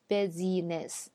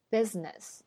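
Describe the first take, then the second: First: The middle syllable is fully pronounced. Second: The middle syllable is dropped. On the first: The speaker calls it wrong. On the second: The speaker calls it right.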